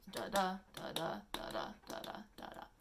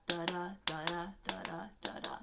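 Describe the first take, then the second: First: "Da da" with the second "da" stressed, sinking to a whisper by the end; iambic rhythm fading. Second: "da da" with the second "da" punched each time, unstressed then stressed; bouncy da DA rhythm demo; iambic da-da rhythm. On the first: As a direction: iamb beat trailing off to a whisper. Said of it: "unstressed, stressed, unstressed, stressed". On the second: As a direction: tap out the iamb by leaning hard on every second "da". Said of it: "so basically how it goes is da da". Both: Shown as a demonstration.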